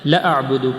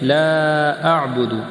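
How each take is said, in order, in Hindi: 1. पहले शब्द का स्वर छोटा करके पढ़ा जाता है। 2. पहले शब्द का स्वर लंबा खींचा जाता है।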